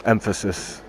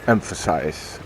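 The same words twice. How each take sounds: First: "emphasis" said where "emphasize" is meant, stress on EM; mispronounced word. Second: "Emphasize" said in full, ending in a clear "-size"; corrected pronunciation. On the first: Correcting himself to viewers, first says "emphasis" by mistake. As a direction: slip into "emphasis" instead of the verb. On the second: Fixing his slip for viewers, says "Emphasize" correctly. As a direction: land on "Emphasize" with the final "-size" sound. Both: Real, not acted. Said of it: "I think that's the way to pronounce".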